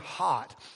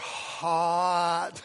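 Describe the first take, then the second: First: It is said at a normal pace. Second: It is said slowly and drawn out.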